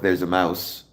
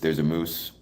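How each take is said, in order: First: The Canadian accent is mild and barely noticeable. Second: The Canadian accent is exaggerated and strong. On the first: "if I'm talking regularly" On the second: "play it up for the camera"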